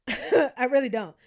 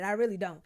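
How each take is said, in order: First: Louder, laughing repeat of I really don't. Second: Said in the usual way. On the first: Real, not acted. Vlogger insisting she has no money, laughing. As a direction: laugh through the denial.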